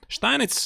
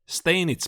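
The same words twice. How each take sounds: First: The name is said with a German pronunciation. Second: The name is said with an English pronunciation. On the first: "Steinitz is the German pronunciation" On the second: "how do you pronounce it in English? Uh, English"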